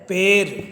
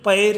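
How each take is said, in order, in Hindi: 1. पहला स्वर थोड़ा बंद 'e' जैसा है। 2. पहला स्वर खुला 'ai' जैसा है। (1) "खड़ी बोली में ए की मात्रा में इसको बदल जाता है" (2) "ऐ की मात्रा है"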